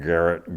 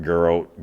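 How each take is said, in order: First: "Garrett" ending in a short -et; trying a pronunciation. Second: "Garrett" said as guh-ROH; trying another pronunciation. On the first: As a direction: say "Garrett" with a clear final t. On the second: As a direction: say "Garrett" with an oh ending, silent t. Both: Real, not acted.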